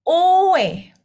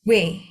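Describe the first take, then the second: First: The vowels are said as two separate syllables. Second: The vowels glide together into one syllable. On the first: "O ditambah E" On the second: "Kalau lama-lama jadi W"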